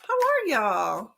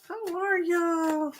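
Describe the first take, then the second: First: Said in the usual way. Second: Slow, high Texan drawl on y'all; hammed-up Southern Texan greeting; Texan cowgirl drawl. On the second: Shown as a demonstration. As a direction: stretch it out like a Texas cowgirl. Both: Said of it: "I can sound like a cowgirl".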